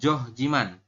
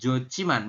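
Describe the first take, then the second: First: The middle consonant is h followed by j. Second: The middle consonant is an aspirated ch. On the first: The speaker calls it wrong. "bukan Johjiman" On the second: The speaker calls it right. "kita bacanya menjadi Jociman"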